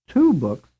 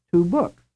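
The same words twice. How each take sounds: First: Two books with TWO louder; stress on TWO. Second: Two books with BOOKS higher and rising; stress on BOOKS. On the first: Teacher contrasting the two phrases, stress on TWO. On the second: Teacher contrasting the two phrases, stress on BOOKS. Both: Shown as a demonstration. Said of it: "mean the same thing as the phrase".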